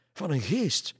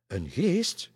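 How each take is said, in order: First: High, loud exclamation on GEEST; crying out. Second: High, loud, rising echo; startled question. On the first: Pastor identifies the shirt's owner, crying out. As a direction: cry out "geest" in alarm. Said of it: "riep de pastoor". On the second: Three ladies echo the pastor, startled question. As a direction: ask "geest" back in disbelief. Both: A narrator's reading.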